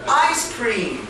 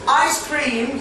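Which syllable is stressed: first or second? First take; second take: first; first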